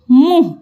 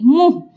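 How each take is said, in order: First: "मुंह" as oral muh; the mistaken "मुंह", no nasal vowel; without nasal. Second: "मुंह" as mũh, through the nose; nasalised vowel. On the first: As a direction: say "मुंह" with a plain u. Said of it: "मुंह नहीं". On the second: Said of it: "नाक से बोलेंगे मुंह". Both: Shown as a demonstration.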